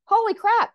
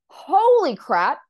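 First: Much higher and louder, quick gasp of wonder; be blown away; client's astonishment. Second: Much louder, slow drawn-out amazement; stunned awe. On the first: Client amazed at reading. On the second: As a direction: let the shock break open. Reading suddenly opens up. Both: Retold or imitated.

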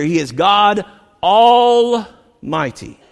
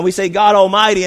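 First: Slow and louder, Almighty drawn out and weighty; emphasis on Almighty. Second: Said in the usual way. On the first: Shown as a demonstration. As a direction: lean hard on Almighty, each word slow. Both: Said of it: "let me even put an emphasis on the".

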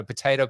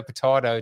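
First: "potato" with a long AY in the middle; American potato. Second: "potato" with a broad AH in the middle; British-style potato. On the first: Host contrasting two ways of saying a word, American potato. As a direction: say potato as po-TAY-to. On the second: Host contrasting two ways of saying a word, British-style potato. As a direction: say potato as po-TAH-to. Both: Shown as a demonstration. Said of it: "I will pronounce it the way".

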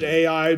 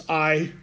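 First: "A I" said as two letter names; other pronunciation. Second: "Ai" as one syllable, like "eye"; looked-up pronunciation. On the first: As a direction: say "A I" like spelling out A, then I. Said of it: "Some people pronounce it A I". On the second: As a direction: say "Ai" to rhyme with "sky". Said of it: "I would know it's Ai". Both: Shown as a demonstration.

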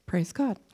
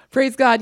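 First: Said in the usual way. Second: A loud, joyful shout of praise. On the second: Real, not acted. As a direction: exclaim it loudly, full of joy. Burst of praise after laughing.

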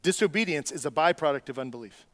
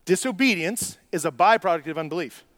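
First: Said in the usual way. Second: Louder repeat, "byproduct" stressed with a falling tune; emphatic repeat. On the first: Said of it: "repeats the line for emphasis". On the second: Shown as a demonstration. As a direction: hammer the line home, leaning on "byproduct". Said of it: "repeated, emphasised".

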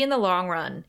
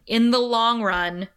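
First: Said in the usual way. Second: "in the long run" said louder and pressed; emphasized phrase. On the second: Shown as a demonstration. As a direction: lean on "long run" to make the point. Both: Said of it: "I'm emphasizing this".

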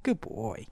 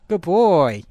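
First: Quiet soothing murmur to the dog; soft praise. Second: Said in the usual way. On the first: Real, not acted. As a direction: hush the puppy gently. Soothing held puppy.

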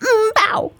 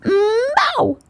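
First: High half-bark bow; wrong mew. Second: High doggy meow; wrong meow. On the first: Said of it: "all I can say is". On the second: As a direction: meow that sounds half like a dog. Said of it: "all she could say was". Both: Acted.

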